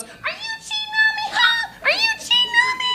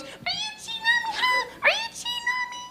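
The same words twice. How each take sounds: First: Shrieking falsetto accusation, far above his own voice; jealous lover's falsetto, way up high. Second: Shrill falsetto, softer this time; jealous lover's falsetto, way up high. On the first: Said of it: "Gotta make her voice real high for that". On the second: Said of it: "make her voice real high for that". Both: Pretend.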